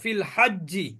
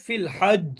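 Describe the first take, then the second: First: It continues into a final vowel without echo. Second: It stops on the consonant with an echoing bounce. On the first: The reader does not stop on the word. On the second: The reader stops on the word.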